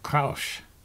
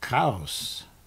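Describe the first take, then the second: First: The word ends with a sh sound. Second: The word ends with a plain s sound. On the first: The speaker calls it right. "So with a sh sound at the end" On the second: The speaker calls it wrong.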